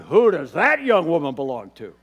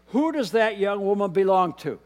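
First: It is asked with eager romantic interest. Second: It is asked as a plain, neutral question.

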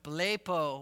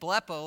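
First: It is said with a Spanish-sounding accent. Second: It is said without a Spanish-sounding accent. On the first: The speaker calls it wrong. "I went blepo" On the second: The speaker calls it right. "instead of saying blepo like you're supposed to"

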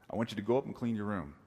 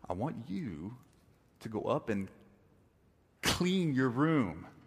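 First: It is said in a casual, ordinary way. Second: It is said forcefully, with strong emphasis.

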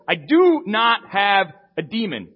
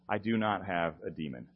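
First: It sounds loud and forcefully emphatic. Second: It sounds weary and exasperated.

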